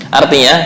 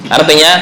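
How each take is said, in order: The two takes are said the same way.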